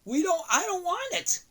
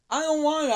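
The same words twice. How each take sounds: First: High, pleading no; high whiny refusal. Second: Said in the usual way. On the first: Acted. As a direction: whine it, refusing.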